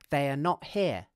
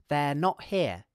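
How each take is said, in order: First: Every word is said in full. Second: They are is shortened into one syllable. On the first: "this is not the same as saying they are not here" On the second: "we can contract they are like this"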